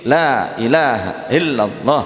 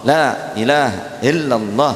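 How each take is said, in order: No difference in how they are said.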